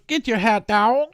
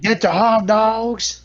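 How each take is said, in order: First: Put-on old-time hot dog seller. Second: High, slow New York vendor call; New York hot dog vendor. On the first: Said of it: "nineteen forty Yankees hot dog seller". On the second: Pretend. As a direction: stretch it out like a stadium hawker. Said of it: "And then we got the new guy".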